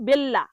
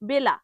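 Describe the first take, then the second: First: The L is doubled and pressed hard. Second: The L is short and plain. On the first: The speaker calls it wrong. "ভুল উচ্চারণ করে তখন এরকম বলে বেল্লা" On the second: The speaker calls it right. "Normal উচ্চারণ করতে হবে বেলা"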